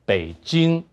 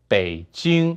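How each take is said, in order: The two takes are said the same way.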